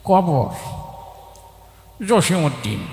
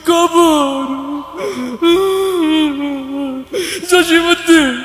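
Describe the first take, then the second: First: An elderly voice chewing something recites the words. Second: A weeping, tearful voice recites the words. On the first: The reciter is an elderly man chewing betel. "মুরব্বী পান খেতে খেতে আসছে" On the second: The reciter is overcome with sadness. "ও আগেই কান্দা শুরু করে দিছে"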